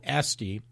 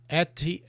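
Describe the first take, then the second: First: The t sound comes after the s. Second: The t sound comes before the s. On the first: The speaker calls it wrong. "I called Esty" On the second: The speaker calls it right. "but it's actually"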